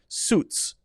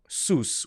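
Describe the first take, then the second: First: A crisp T sound comes before the final S. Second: The T sound before the final S is dropped. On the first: The speaker calls it right. "it's a little T sound that makes it kind of like you're hitting a cymbal" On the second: The speaker calls it wrong. "which would be incorrect"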